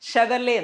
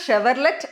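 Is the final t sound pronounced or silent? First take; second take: silent; pronounced. First: It ends without any t sound. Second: It ends with a pronounced t sound. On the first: The speaker calls it right. "ടി അവിടെ silent ആണ്" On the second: The speaker calls it wrong. "അത് ഷെവർലെറ്റ് അല്ല"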